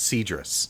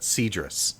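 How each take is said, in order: First: The name is pronounced in an American way. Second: The name is pronounced in an American way.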